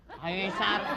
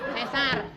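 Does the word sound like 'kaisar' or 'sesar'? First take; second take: kaisar; sesar. First: The word begins with a 'kai' sound. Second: The word begins with a 'se' sound. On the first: The speaker calls it wrong. "Tadi saya kaisar itu" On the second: The speaker calls it right. "Itu yang benar"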